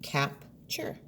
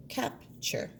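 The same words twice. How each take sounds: First: "Capture" whispered softly; a hushed "Capture". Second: "Capture" whispered and higher; a hushed, higher "Capture". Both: Shown as a demonstration. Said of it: "Leave chur as a chunk".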